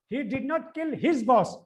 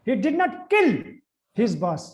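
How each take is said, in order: First: The stress is on "his". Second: The stress is on "kill".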